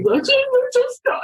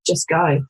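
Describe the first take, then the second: First: Much higher, slow, strained quote; literally how it sounded. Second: Said in the usual way. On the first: Retold or imitated. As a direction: stretch it out high and pleading. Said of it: "but literally". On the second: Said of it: "I just remember saying".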